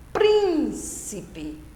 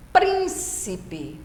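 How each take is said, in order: First: "príncipe" with "prín" stretched and pitched high; exaggerated first-syllable stress. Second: "príncipe" in separated syllables, weight on "prín"; stress on first syllable. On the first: Teacher repeating the example, exaggerated high stress on "prín" of "príncipe". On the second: Teacher giving a proparoxytone example, measured first-syllable stress on "príncipe". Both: Shown as a demonstration. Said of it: "antepenúltima sílaba tônica, a mais forte".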